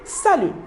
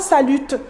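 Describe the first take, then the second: First: The final T sound is silent. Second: The final T sound is pronounced. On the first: The speaker calls it right. "on dit salut" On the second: The speaker calls it wrong. "on ne prononce pas le T, on ne dit pas salute"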